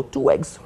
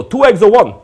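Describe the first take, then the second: First: Said in the usual way. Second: Put-on loud, high-pitched immigrant New York accent. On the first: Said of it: "I go". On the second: Griddle man taking a deli order, immigrant New York accent. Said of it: "That was an immigrant New York accent".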